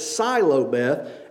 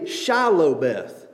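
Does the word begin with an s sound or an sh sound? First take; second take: s; sh. First: The word begins with an s sound. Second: The word begins with an sh sound. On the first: "They couldn't pronounce the sh sound, so they pronounced it Silobeth" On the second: "could not say Shilobeth"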